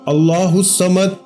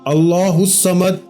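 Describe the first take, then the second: First: Each word is said slowly and separately. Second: The same.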